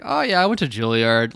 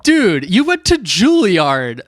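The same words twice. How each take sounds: First: Imitated nonchalance. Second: High, loud, drawn-out disbelief; retold incredulity. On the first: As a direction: toss it off as no big deal. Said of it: "so nonchalant". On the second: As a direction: call out an impressed friend's absurd modesty. Retelling own disbelief at Juilliard graduate.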